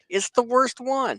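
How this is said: It is said in a high, whiny voice.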